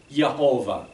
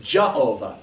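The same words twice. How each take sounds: First: Yehovah begun with a Y sound; Y pronunciation. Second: Jehovah begun with an English J sound; J pronunciation. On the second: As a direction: say "Jehovah" with a hard J at the start. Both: Shown as a demonstration. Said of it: "there's no J in the Hebrew language".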